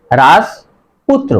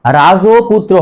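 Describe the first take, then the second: First: রাজপুত্র with silent vowel, raj-putro, very slow; correct pronunciation. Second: রাজপুত্র with full vowel, raja-putro; wrong pronunciation. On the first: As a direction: model the right রাজপুত্র. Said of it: "সঠিক উচ্চারণ হবে". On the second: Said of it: "রাজপুত্র হবে না". (ভুল উচ্চারণ রাজোপুত্রো) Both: Shown as a demonstration.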